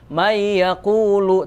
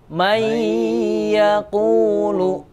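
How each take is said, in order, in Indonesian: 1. Bunyi sengaunya pendek dan tidak ditahan. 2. Bunyi sengaunya ditahan selama tiga ketukan. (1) "nggak boleh" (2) "tapi may yaqulu"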